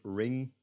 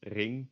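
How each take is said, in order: First: "ring" with an English R and NG; English pronunciation. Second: "ring" as the Dutch word, same NG ending; Dutch pronunciation. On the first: Teacher comparing English with Dutch, English ring. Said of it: "in the English word ring". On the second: Teacher comparing Dutch with English, Dutch ring. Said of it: "in Dutch is ring". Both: Shown as a demonstration.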